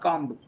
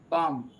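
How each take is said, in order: First: The final B is pronounced. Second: The final B is silent. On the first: The speaker calls it wrong. "not comb" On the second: The speaker calls it right. "B is silent"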